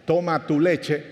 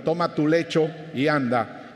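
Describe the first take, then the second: First: Says 'leche' instead of lecho, same quoting tone; a playful-seeming slip on 'leche'; slip of the tongue. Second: 'lecho' said carefully after the slip; correcting himself, stressing 'lecho'; corrected word. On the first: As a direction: quote Jesus but slip into 'leche'. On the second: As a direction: fix it, landing on 'lecho'. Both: Retold or imitated. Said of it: "no, perdón".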